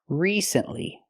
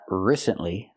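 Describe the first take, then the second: First: The first vowel is a long E. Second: The first vowel is a short I. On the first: The speaker calls it right. "We need the long E like green beans" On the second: The speaker calls it wrong. "Not the short I like this is"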